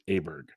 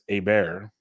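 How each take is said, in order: First: The name is pronounced the American way. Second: The name is pronounced the Swedish way. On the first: This is an accepted version for American speakers. "an acceptable U S pronunciation is Aberg" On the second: This is how the name is said in its home country. "over there, it's Aber"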